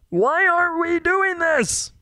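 It is said in a Kermit-like character voice.

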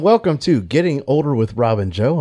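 The words are spoken clearly and distinctly. The speaker calls it right. "I didn't mumble mouth it this time"

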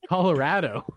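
It is said in a Western way. The speaker calls it right. "it's how you say them with a Western accent"

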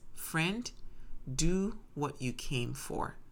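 It is said in a calm tone.

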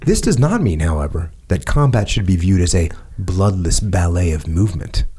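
It is read in a changed, put-on voice. The speaker calls it right.

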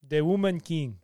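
It is said in a put-on foreign accent. The speaker calls it right. "Can you please do the accent?"

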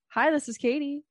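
It is said in a high voice.

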